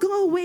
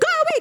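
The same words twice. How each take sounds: First: It is said softly, without force. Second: It is shouted loudly, with force. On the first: The speaker is passively accepting the loss. The speaker calls it wrong. "you don't say" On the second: The speaker is forcefully driving the thief off. The speaker calls it right. "You're shouting"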